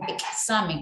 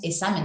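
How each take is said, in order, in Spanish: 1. La x se pronuncia como ks. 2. La x se pronuncia como s. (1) "decimos examen, ahí suena" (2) "no decimos examen"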